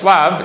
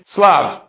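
First: The word begins with an sh sound. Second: The word begins with an s sound. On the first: This is how the word is written. "you would read it as shlav" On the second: This is how the word is read aloud. "but the pronunciation is slav"

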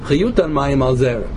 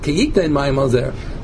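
First: The verb is said with a u vowel. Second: The verb is said with an i vowel. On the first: "the correct pronunciation is yutan" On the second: "It looks like it says kiyitan"

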